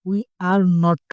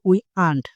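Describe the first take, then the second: First: Every word is said in full. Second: The words are squeezed into one contracted form.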